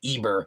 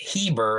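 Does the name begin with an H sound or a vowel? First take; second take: vowel; H sound. First: The name begins with a vowel sound. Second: The name begins with an H sound. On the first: "It's the same family" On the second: "now they're pronouncing it Heber"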